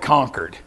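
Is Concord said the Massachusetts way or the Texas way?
Massachusetts. It is said with the Massachusetts local pronunciation. This is how the locals say the name. The speaker calls it right. "they call it Concord"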